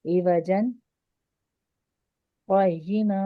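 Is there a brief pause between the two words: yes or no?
yes. The voice stops briefly between the two words.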